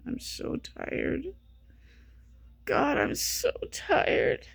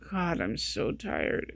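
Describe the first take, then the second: First: Slow, airy whisper of real exhaustion; exhausted whispered moan. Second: Tired. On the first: Vlogger drained from no sleep, moaning in a whisper. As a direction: sigh the words out, drained and spent. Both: Real, not acted.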